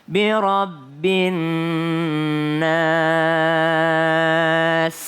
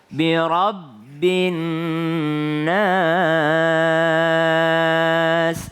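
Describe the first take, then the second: The two takes are said the same way.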